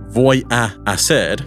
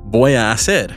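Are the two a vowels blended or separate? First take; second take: separate; blended. First: The two a vowels are said separately. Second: The two a vowels are blended together. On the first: The speaker calls it wrong. "it doesn't need to be voy a hacer" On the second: The speaker calls it right. "The two A vowels are blended. ... Instead, voy a hacer"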